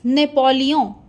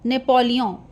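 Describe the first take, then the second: First: The name is said with French nasal vowel. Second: The same.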